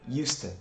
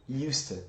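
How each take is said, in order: Both takes have the same delivery.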